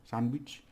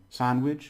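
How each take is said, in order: First: "sandwich" with a Spanish "ee" sound; Spanish pronunciation. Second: Said in the usual way. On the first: Shown as a demonstration. Teacher showing a borrowed English word, Spanish pronunciation. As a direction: say "sandwich" ending like "weech". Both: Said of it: "they pronounce it with their letter".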